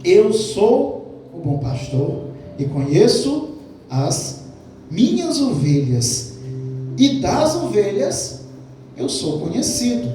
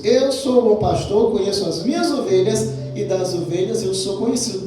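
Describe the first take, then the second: First: Slow, weighty reading of the verse; solemn, drawn-out Bible quote; slow scripture reading. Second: Faster, flowing run through the verse; brisk recap of the verse; quicker scripture reading. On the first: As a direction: lay out each word slowly, letting it sink in. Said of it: "João dez, quatorze". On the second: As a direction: rattle it off as a familiar quote. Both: Shown as a demonstration.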